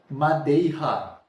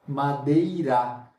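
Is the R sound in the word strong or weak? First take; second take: strong; weak. First: The R is a strong throaty sound. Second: The R is a weak tapped sound. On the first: The speaker calls it wrong. "E não um R forte, porque senão ficaria como?" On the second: The speaker calls it right. "é um R fraco"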